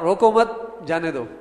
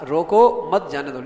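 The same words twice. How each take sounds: First: There is a pause after the second word. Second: There is a pause after the first word. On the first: Do not stop him; let him leave. The speaker calls it wrong. "اس نے پڑھا" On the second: Stop him and do not let him leave. The speaker calls it right. "میں نے کہا"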